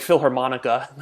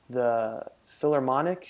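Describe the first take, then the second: First: The word ends with an extra 'a' sound. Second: The word ends on the 'ic' sound. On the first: The speaker calls it wrong. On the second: The speaker calls it right.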